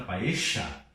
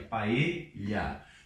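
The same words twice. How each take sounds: First: It is said with an Argentine pronunciation. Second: It is said with a Spain Spanish pronunciation. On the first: "talvez você tenha escutado aí da Argentina paella" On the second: "mas é isso aqui, é paella"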